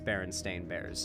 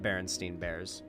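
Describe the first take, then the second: First: The name's last syllable sounds like 'stain'. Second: The name's last syllable sounds like 'steen'. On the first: The speaker calls it right. "I very much know for a fact it was always Berenstain Bears" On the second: The speaker calls it wrong. "not Berenstein Bears"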